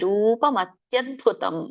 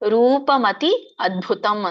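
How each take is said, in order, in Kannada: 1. ಪದಗಳು ಒಂದೇ ಧ್ವನಿಯಾಗಿ ಒಟ್ಟಿಗೆ ಸೇರಿವೆ. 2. ಪದಗಳು ಬೇರೆ ಬೇರೆ ಭಾಗಗಳಾಗಿ ಬೇರ್ಪಟ್ಟಿವೆ. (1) "ಕೂಡಿ ಹೇಳಿ" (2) "ಬಿಡಿಸೋದಾದ್ರೆ"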